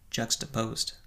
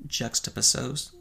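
First: Said in the usual way. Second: "juxtaposed" slowly garbled to end in "-uh-sohz"; mispronounced word. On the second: Real, not acted. Reviewer admits he cannot say the word, "juxtaposed" fumbled as "juck-stuh-puh-sohz". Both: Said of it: "I cannot say the word".

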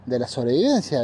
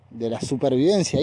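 First: "sobrevivencia" said as the first, mistaken word choice; tripping over "sobrevivencia" before self-correcting; slip of the tongue. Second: "supervivencia" said carefully as the corrected word; self-correction. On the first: Speaker stumbling mid-rant, says "sobrevivencia" by mistake. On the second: Speaker fixing his own slip, says "supervivencia" carefully. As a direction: settle on "supervivencia", a bit deliberately. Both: Shown as a demonstration. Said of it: "el acto de dislexia más grande".

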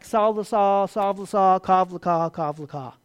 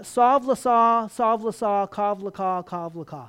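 First: "Sav l'sa, sav l'sa, kav l'ka, kav l'ka" tossed back louder, like a dismissive taunt; mocking Hebrew retort. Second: "Sav l'sa, sav l'sa, kav l'ka, kav l'ka" read as chanted Hebrew syllables, a little louder; Hebrew phrase read out. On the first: Israel answering God back with louder singsong babble. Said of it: "And they come back". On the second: Shown as a demonstration. Preacher reading the Hebrew verse to the congregation, rhythmic and a little louder. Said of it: "this is what it says in the Hebrew".

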